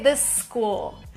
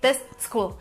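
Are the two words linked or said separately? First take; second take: linked; separately. First: The words join into one longer S sound. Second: The two S sounds are said separately. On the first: The speaker calls it right. "It's like one S, but it's a little longer" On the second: The speaker calls it wrong. "you don't say this school"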